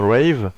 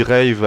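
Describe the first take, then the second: First: "Rave" attempted in an English accent; English pronunciation. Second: "Rave" with a French accent and French R. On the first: Vlogger showing the proper name, English-accented "Rave". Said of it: "mais ça se dit bien sûr Rave". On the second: Vlogger owning his bad accent, "Rave" French-accented. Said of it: "avec mon accent de merde". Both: Shown as a demonstration.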